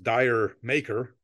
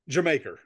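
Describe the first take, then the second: First: It sounds like the words 'dire maker'. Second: It sounds like the word 'Jamaica'. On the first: The speaker calls it wrong. "pronounced in America forever and ever, and I think even in England as Dire Maker" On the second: The speaker calls it right. "So it is pronounced Jamaica"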